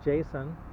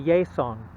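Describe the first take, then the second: First: It is said with an American English J sound. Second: It is said Spanish-style with a Y sound.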